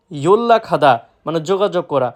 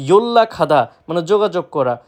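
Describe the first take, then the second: No difference in how they are said.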